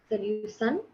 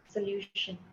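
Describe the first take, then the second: First: The middle consonant is an 's' sound. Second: The middle consonant is an 'sh' sound. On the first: The speaker calls it wrong. "you said solution" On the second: The speaker calls it right. "Very good"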